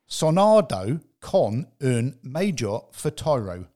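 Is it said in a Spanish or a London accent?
London. It is said in a London accent.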